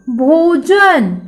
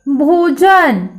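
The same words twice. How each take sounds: First: भोजन very slow, the भो stretched; slow model word. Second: भोजन very slow again, long भो; slow model word. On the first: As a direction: draw out भोजन syllable by syllable. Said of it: "भ को ओ की मात्रा लगी है तो शब्द तैयार हो गया". (भोजन को बहुत धीरे, भो लंबा खींचकर बोलो) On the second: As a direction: draw out भोजन for children to repeat. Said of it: "आपको भी मेरे पीछे पीछे दोहराना है". (बच्चों के दोहराने के लिए भोजन धीरे-धीरे) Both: Shown as a demonstration.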